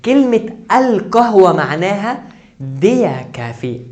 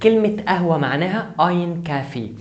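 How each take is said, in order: First: Slow and loud, leaning hard on كلمة القهوة; emphatic teacher stress on القهوة; stress on definite القهوة. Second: Said in the usual way. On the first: Shown as a demonstration. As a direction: spell out القهوة slowly, loud and deliberate. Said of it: "انا ما قلتش القهوة". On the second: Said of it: "انا بقول قهوة".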